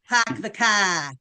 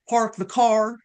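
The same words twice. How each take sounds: First: It is said in a Rhode Island accent, R dropped. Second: It is said in a Texas accent, R pronounced.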